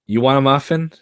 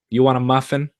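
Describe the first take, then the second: First: Louder, pushing the offer with a rise on "muffin"; insistent repeat. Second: Said in the usual way. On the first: Acted. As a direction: ask "You want a muffin?" again more pointedly.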